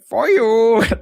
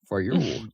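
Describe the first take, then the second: First: The words are said in an exaggerated, silly voice. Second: The words are said in a plain, ordinary voice.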